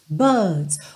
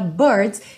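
First: The R is dropped and the vowel is lengthened. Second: The R after the vowel is pronounced. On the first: "no britânico vai ser mais buds" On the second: "eu falei agora com uma pronúncia bem americana"

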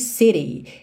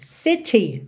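First: It is said with an American accent. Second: It is said with a British accent.

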